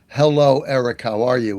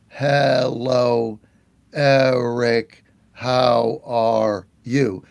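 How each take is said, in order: First: It is said at a normal pace. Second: It is said slowly, word by word.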